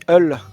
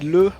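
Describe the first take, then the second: First: The vowel comes first, then the L. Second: The L comes first, then the vowel. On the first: This is the local patois form. "on dit eul, E L" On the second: This is the standard French form. "quand on dit le"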